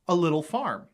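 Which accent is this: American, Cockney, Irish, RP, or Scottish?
Scottish. It is spoken in a Scottish accent.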